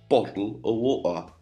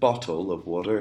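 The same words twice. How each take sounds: First: The t sounds are replaced by glottal stops. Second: The t sounds are fully pronounced. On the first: "with a glottal stop" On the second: "instead of saying"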